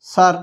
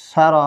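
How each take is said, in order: First: সার closed on the r, one syllable "sar"; pausal ending. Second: সার said as "sa-ra", final r carrying a short "a"; full vowel ending. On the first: Teacher showing how it sounds when pausing, সার ending on r. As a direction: stop on the r of সার with no vowel after it. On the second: Teacher spelling out the word before the pause form, সার as "sara". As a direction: give সার two syllables, ending on the vowel. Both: Shown as a demonstration. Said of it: "অক্ফ করলে".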